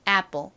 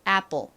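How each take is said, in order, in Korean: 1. 미국식 발음이고, 가볍게 뽕 소리가 나는 p입니다. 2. 미국식 발음이고, 가볍게 뽕 소리가 나는 p입니다.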